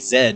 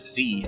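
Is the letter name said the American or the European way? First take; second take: European; American. First: The letter name is said the European way. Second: The letter name is said the American way. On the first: "people say Z" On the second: "instead of Z"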